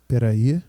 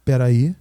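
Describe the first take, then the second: No difference in how they are said.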